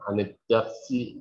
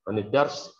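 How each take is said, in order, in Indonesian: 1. Kata terakhir diucapkan dengan vokal akhirnya. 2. Kata terakhir diucapkan tanpa vokal akhirnya. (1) "biar Anda ada perhatian terhadap" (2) "Tapi kalau dia boleh saja"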